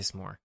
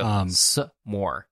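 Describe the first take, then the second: First: The word is said smoothly without a pause. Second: The word has a pause after the s. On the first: "No, I say s'more" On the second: "There's a pause there"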